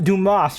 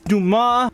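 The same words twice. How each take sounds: First: The final S is pronounced. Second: The final S is silent. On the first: The speaker calls it wrong. "they keep pronouncing his name wrong" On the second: The speaker calls it right. "Like it's Dumas, You don't pronounce the S"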